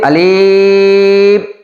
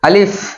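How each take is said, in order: First: The word is drawn out long. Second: The word is said short and quick. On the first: The speaker calls it wrong. "আবার যদি বলি আলিফ এটাও ভুল হবে" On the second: The speaker calls it right. "তাড়াতাড়ি উচ্চারণ করতে হবে"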